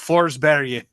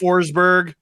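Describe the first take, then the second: First: The name is said with a Swedish pronunciation. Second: The name is said with an English pronunciation. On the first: The speaker calls it right. "That is how you Forsberg. That's how you say it" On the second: The speaker calls it wrong. "is not a person"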